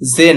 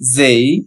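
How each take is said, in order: First: The vowel is a plain e without glide. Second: The vowel glides from e into i. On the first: The speaker calls it wrong. "জে নয়" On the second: The speaker calls it right. "হবে জেই"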